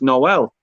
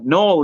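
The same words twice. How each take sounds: First: Noel is pronounced the way the Christmas word is. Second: Noel is pronounced the way the personal name is. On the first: It refers to Christmas. "but for Christmas, it's Noel" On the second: It refers to a person's name. "Noel is the name"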